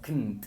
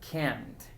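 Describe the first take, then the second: First: The word is quick with almost no vowel. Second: The word has a full open vowel, said slowly. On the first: "hablando rápido suenan como kn o como knt" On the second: "cuando hablamos lento para dar énfasis... Vamos a agregar un sonido diferente al de schwa en la A"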